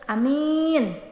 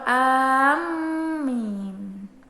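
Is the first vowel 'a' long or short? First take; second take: short; long. First: The first vowel is short; only the second is long. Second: The first vowel is drawn out long. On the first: "dengan tidak membaca mad pada huruf hamzah. ... Yang dimatkan hanya ya-nya saja" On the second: "dengan membaca mad pada huruf hamzah dan tidak mentasdidkan huruf min"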